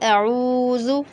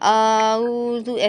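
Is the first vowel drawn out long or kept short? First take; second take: short; long. First: The first vowel is kept short. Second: The first vowel is stretched long. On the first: The speaker calls it right. "ऐसे पढ़ें, अऊज़ु, आ को खींचे ही नहीं" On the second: The speaker calls it wrong. "हम आ को ज़्यादा खींच देते हैं और ऊ को नहीं खींचते, आऊज़ु ऐसे पढ़ लेते हैं, तो ये भी नहीं करना है"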